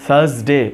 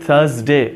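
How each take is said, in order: Both takes have the same delivery.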